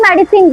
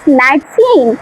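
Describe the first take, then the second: First: It is said in a plain local accent. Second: It is said in a polished, careful accent. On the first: This is how other schools teach it. The speaker calls it wrong. "That is not medicine" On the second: This is how this school teaches it. The speaker calls it right. "that's medicine"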